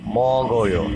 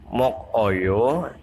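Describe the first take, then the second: First: The middle consonant sounds like g. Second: The middle consonant sounds like k. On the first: The speaker calls it right. "tapi mogoyo" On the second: The speaker calls it wrong. "bukan mokoyo"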